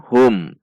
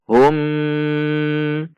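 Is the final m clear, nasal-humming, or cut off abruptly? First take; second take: clear; nasal-humming. First: The final m is pronounced clearly and evenly. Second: The final m is held with a nasal hum. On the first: The speaker calls it right. "dibaca izhar syafawi atau dibaca jelas" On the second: The speaker calls it wrong. "tidak boleh dibaca dengung seperti contoh hum"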